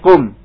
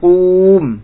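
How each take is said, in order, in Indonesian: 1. Vokalnya diucapkan pendek. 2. Vokalnya diucapkan panjang. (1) "tapi kum" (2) "bukan kum"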